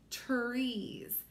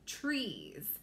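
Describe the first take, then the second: First: The word is said slowly, sounded out. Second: The word is said at a normal speed.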